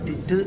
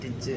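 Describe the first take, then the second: First: The word ends with a clear 'd' sound. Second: The word ends with a 'j' sound. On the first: The speaker calls it wrong. "ഡിഡ് എന്നതിന് പകരം നമ്മൾ ഉപയോഗ ഉച്ചരിക്കേണ്ടത് അതല്ല" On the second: The speaker calls it right. "അതിൻ്റെ pronunciation എന്ന് പറയുന്നത് ഡിജ് എന്നാണ്"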